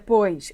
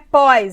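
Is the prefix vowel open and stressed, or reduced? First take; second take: reduced; open. First: The vowel is reduced and unstressed. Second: The vowel is open and stressed. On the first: The speaker calls it right. "é" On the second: The speaker calls it wrong. "já que não é"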